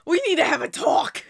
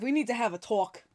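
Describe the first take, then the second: First: Breathless, laughing half-whisper. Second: A touch of a stern talking-to; lightly playing the strict one; mock-serious. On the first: Real, not acted. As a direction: gasp it out mid-laugh. Laughing, repeating the call-out. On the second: Mock-serious call-out to a viewer.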